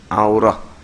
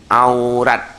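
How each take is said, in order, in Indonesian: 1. Kata ini berakhir dengan bunyi h. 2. Kata ini berakhir dengan bunyi t. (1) "Kebanyakannya baca berhenti dengan he" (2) "dia baca dengan te"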